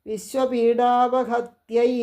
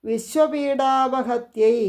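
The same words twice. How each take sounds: The two takes are said the same way.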